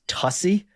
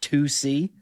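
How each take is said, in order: First: It is said like 'tussy', short first vowel. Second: It is said as 'two see', two separate parts. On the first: The speaker calls it wrong. "I initially pronounced it as Tussie" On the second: The speaker calls it right. "is pronounced two C"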